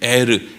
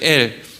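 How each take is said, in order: First: The name is two syllables with an R sound. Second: The name is one syllable ending in an L. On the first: The speaker calls it right. "에르라는 뜻이에요" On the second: The speaker calls it wrong. "엘이라고 성경에는 기록되어 있는데 이게 엘이 아니라"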